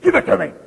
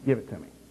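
First: It is said in a playful, teasing tone. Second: It is said in a firm, serious tone. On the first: The speaker is only playing around. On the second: The speaker really means it.

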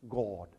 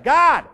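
First: It is said in a polished, trained voice. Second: It is said as a plain, loud shout. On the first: Skill in speaking is not needed. "You don't have to be trained. He doesn't have to say" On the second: Simply being loud is enough. "Not a trained voice, a loud one"

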